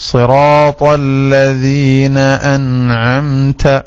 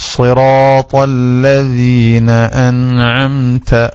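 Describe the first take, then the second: Both takes have the same delivery.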